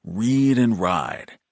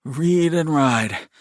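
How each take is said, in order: First: "Read and ride" slow and evenly lilted; sing-song soothing. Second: Higher, slow sing-song echo; echoing little brother. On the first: Brother calming brother, "Read and ride" in slow sing-song. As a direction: stretch "Read and ride" calmly at normal pitch. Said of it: "sing-song cadences". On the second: Brother echoing his calming brother, higher sing-song. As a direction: copy the soothing chant in a raised voice. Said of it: "Shep echoed". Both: A narrator's reading.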